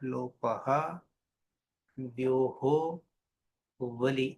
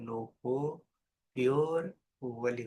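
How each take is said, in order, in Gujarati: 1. દરેક શબ્દ પોતાના પૂર્ણ અંત સાથે અલગ ઉચ્ચારાય છે. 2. શબ્દો સંધિવાળા અંત સાથે એકબીજામાં ભળીને ઉચ્ચારાય છે. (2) "સાથે બોલીએ તો"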